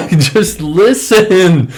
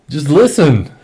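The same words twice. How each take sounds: First: Slow, high, laughing plea; laughing in disbelief. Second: Pleading, pitched up and louder; exasperated plea. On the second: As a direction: beg them to just listen. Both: Real, not acted. Frustrated plea to followers.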